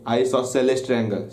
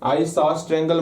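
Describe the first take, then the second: First: The first word is said with all four syllables. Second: The first word is cut short to two syllables. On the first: The speaker calls it right. "आइसोसेलेस triangle बोलोगे" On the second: The speaker calls it wrong. "आइसोस triangle मत बोल देना"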